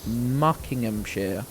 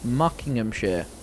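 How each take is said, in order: First: The word is said slowly and drawn out. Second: The word is said at normal speed.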